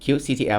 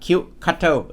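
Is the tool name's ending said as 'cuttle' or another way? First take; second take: another way; cuttle. First: The ending is not pronounced like 'cuttle'. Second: The ending is pronounced like 'cuttle'. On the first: This is the presenter's own preferred way. "ส่วนตัวผมชอบเรียก" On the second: This is how people abroad say it. "ในคลิปต่างประเทศเขาจะอ่านว่า"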